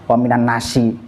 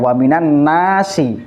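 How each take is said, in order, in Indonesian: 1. Vokalnya ditahan pendek. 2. Vokalnya ditahan jauh lebih panjang. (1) "pembacaannya salah lagi" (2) "harusnya agak panjang"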